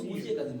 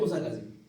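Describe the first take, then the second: First: The first name ends with an 'ee' vowel. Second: The first name ends with an 'ah' vowel. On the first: This is the Persian or Urdu form with izafa. "Urdu Farsi बोलेंगे तो मूसी काजिम बोलेंगे" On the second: This is the Arabic form. "अरबी मूसा काजिम"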